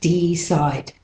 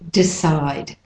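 First: The first vowel is a full E. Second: The first vowel is a reduced schwa. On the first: The speaker calls it wrong. "not decide" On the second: The speaker calls it right. "but it's mainly decide"

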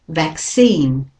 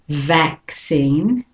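First: The stress is on the second syllable. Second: The stress is on the first syllable. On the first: "So the second syllable is stressed there" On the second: "the British and Australian is vaccine"

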